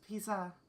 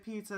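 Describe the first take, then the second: First: It is said with Japanese-style sounds. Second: It is said with plain English sounds. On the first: "it's pizza. They're trying very hard" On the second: "if you want to say pizza"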